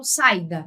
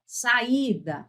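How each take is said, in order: First: "saída" run together as SAI-da; wrong diphthong version. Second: "saída" as sa-Í-da, vowels separate; teacher splitting "saída" into three syllables; hiatus pronunciation. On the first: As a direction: merge a and i of "saída" into one stressed syllable. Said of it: "eu não falo saída". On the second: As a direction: stress a distinct "í" after the a in "saída". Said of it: "Eu pronuncio as, todas elas". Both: Shown as a demonstration.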